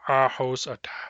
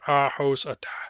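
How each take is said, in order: The two takes are said the same way.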